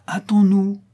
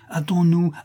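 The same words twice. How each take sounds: First: Much higher and louder, nearly crying out; second hurry-up breaking into alarm; frantic plea. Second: Higher, pressing hurry-up; first push to make him hurry; urgent plea. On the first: Disciple sensing something wrong, frantic and much higher. Urging dying master to hurry. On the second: Disciple pressing his silent master, urgent and higher. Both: Acted.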